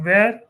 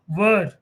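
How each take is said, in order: First: It is pronounced like the word 'where'. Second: It is pronounced like the word 'were'. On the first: The speaker calls it wrong. "Not where" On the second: The speaker calls it right. "were is the pronunciation"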